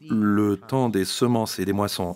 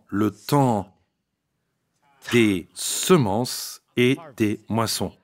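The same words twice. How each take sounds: First: It is said at normal speed. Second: It is said slowly.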